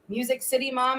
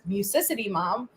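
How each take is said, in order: First: Music and City are said as separate words. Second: Music and City run together into one word. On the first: The speaker calls it right. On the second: The speaker calls it wrong.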